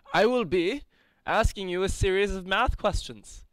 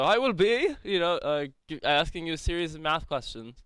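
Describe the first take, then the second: First: Pompous orator voice. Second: A hint of a hammy stage actor; thespian voice. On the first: Acted. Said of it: "It was my pompous orator voice". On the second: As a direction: restate it in a mildly grand stage voice. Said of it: "it's my thespian voice".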